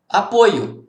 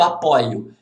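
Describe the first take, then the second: First: "Apoio" with a closed "oi", as in the noun. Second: "apoio" with an open "ói", as in the verb. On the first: Teacher answering how the noun is pronounced, closed o in "Apoio". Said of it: "como que é a pronúncia". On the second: Teacher contrasting the verb with the noun, open o in "apoio". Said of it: "se fosse o verbo apoio". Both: Shown as a demonstration.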